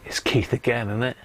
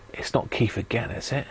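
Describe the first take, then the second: First: Said in the usual way. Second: Unvoiced conspiratorial whisper. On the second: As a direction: hush it like a secret. Whispered aside, then said aloud.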